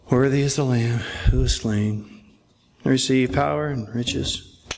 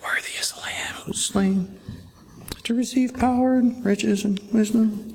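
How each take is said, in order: First: It is said in a bored voice. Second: It is said in a timid voice.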